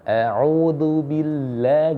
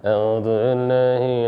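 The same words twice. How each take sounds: First: Every sound is fully and clearly articulated. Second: The sounds are slurred with little mouth movement. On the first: The speaker calls it right. "gerak semuanya" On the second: The speaker calls it wrong. "yang gerak cuma lidahnya doang"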